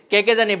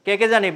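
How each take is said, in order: Both takes have the same delivery.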